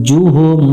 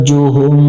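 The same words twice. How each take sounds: No difference in how they are said.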